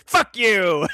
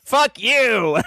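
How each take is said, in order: First: Icy taunting kiss-off, a bit louder; Emma Frost voice. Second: Icy taunting kiss-off; Emma Frost voice. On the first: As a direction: snap it like a cold villain. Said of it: "She's like". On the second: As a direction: sneer it like a cold villain. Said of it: "I love that Emma Frost voice". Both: Retold or imitated.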